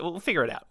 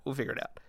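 First: Said in the usual way. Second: Much softer mumbled repeat; a hushed afterthought; quiet echo. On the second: Shown as a demonstration. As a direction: drop it to a murmur.

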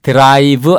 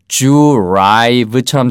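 First: "drive" as Korean "deu-ra-i-beu", with a separate d and r; "drive" with an added vowel after d and v; wrong Koreanized drive. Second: "drive" opening with a j-like "jyu-raive" sound; drawn-out "drive" starting like "ju"; natural dr sound. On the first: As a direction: spell out "drive" in Korean syllables. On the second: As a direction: blend the d and r of "drive" into "jr". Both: Shown as a demonstration. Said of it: "drive 아니고 drive처럼 들립니다".

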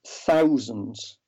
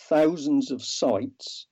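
First: Said in the usual way. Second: "thousands" stretched slowly and stressed. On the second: Shown as a demonstration.

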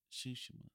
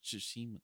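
First: Tsushima with SHOO stressed first; game's pronunciation. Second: Said in the usual way. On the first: Shown as a demonstration. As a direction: say Tsushima as SHOO-shmuh, middle squeezed short. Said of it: "I've been saying it wrong". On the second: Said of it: "Tsushima is".

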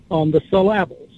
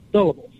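First: "syllables" as suh-LAB-les, middle syllable stressed; deliberately wrong stress on the second syllable of "syllables"; misplaced stress. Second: Said in the usual way. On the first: Shown as a demonstration. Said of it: "haven't heard it quite pronounced like that". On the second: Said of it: "That's the whole point".

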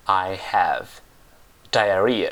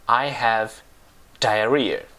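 First: "I have diarrhea" slowly, with a long gap before "diarrhea"; slow word-by-word model. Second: Said in the usual way. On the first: Shown as a demonstration. Teacher repeats a hard English word for learners, slow separated "I have diarrhea". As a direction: set "diarrhea" apart after a slow "I have".

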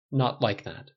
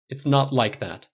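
First: Said in the usual way. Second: Slow, firm harsh denial, stress on not. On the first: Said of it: "repeated softer". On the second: Acted. Tony cutting off the stylist, harsh and slow. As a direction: bite off "It's not like that", "not" hard. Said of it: "tone unexpectedly harsh".

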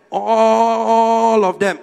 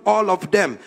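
First: "all" held very long on one note; long, sustained "all", then "of them"; drawn-out ALL. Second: Said in the usual way. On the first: Real, not acted. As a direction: stretch "all" out for emphasis. Repeats it, stretching the word all.

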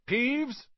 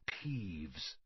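First: Higher and louder call; raised voice. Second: Hushed whisper of a warning name. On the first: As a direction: call out sharply to the air. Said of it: "He raised his voice". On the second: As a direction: breathe the name almost silently. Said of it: "Percy whispered to the first years". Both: A narrator's reading.

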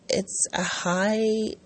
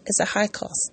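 First: Slow unvoiced whisper on "It's a high"; hushed for effect; whispered emphasis. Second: Said in the usual way. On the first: Real, not acted. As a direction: breathe "It's a high" slowly, no voice. Stressing the high cost.

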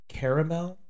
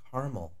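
First: Caramel said as "KARE-uh-mel"; three-syllable caramel. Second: Caramel said as "KAR-mul"; two-syllable caramel. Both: Shown as a demonstration. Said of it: "I say caramel".

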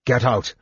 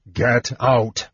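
First: Said in the usual way. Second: "Get out" drawn out, each word separate; measured, emphatic "Get... out"; insistent repeat. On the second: Acted. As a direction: repeat "Get out" slowly and firmly. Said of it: "Tanis repeated".

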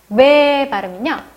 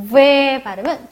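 First: 왜 said as "be", with a B at the start; B sound. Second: 왜 said as "ve", with an English V at the start; V sound. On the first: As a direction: close both lips for a B on 왜, sounding "be". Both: Shown as a demonstration. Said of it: "요 매 발음이랑 왜 발음은 B와 V".

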